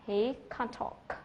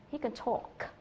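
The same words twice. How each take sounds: First: Slow, full "can't", then clear "talk"; clearly stressed CAN'T. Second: "can" reduced and unstressed, "talk" clear; weak CAN, clear TALK. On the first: Teacher contrasts the negative form, "can't" stressed and drawn out. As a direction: give "can't" and "talk" both full weight. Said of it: "Các bạn sẽ nghe thấy". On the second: Teacher shows the affirmative form, "can" unstressed and "talk" stressed. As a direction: slip quickly over "can" and land on "talk". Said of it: "không nhấn vào cái từ can". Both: Shown as a demonstration.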